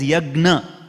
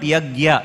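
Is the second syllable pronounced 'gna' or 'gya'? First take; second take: gna; gya. First: The second syllable is pronounced 'gna'. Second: The second syllable is pronounced 'gya'. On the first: The speaker calls it right. "it is Yagna" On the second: The speaker calls it wrong. "It is not Yagya"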